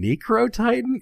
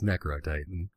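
First: "Necro Titan" as NEE-cro, higher and querying; British pronunciation. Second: "Necro Titan" as NECK-ro, low and quiet; American pronunciation. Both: Acted. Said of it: "that's how you say it in an American accent".

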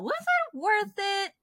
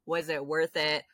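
First: High, drawn-out disbelief; incredulous. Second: Said in the usual way. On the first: Real, not acted. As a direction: pitch it way up in disbelief. Incredulous rhetorical question.

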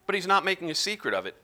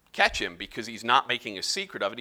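First: "not" hit higher, pace quick; stress on not. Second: Said in the usual way. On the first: Shown as a demonstration. Teacher stressing "not" to the class. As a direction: lean hard on "not" while repeating the point.

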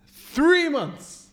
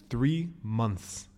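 First: THREE MONTHS high, loud and stretched; outraged disbelief. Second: THREE MONTHS slow and soft, spaced out; measured emphasis. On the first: Repeats delay in outrage. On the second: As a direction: set down "three months" slowly, unraised. First states the absurd delay. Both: Retold or imitated.

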